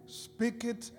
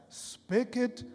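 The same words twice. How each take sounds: The two takes are said the same way.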